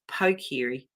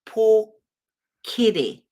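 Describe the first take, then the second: First: The first syllable does not sound like pork. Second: The first syllable sounds like the word pork. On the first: The speaker calls it wrong. "my name was pronounced Pokiri" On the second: The speaker calls it right. "it sounds like pork, you know, like the pig"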